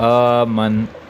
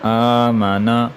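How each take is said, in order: First: The word ends on a consonant, vowel dropped. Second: The word ends with a final vowel sound. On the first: The reader stops on the word. "वक़फ़" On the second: The word is read in full, in continuous reading. "उसके बाद हमने रवा पढ़ा"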